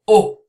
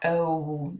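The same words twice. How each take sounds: First: A short pure vowel with rounded, open lips. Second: A gliding vowel with the lips closing together. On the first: The speaker calls it right. "Your mouth goes in a circle" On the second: The speaker calls it wrong. "Not oh. Your lips don't go together"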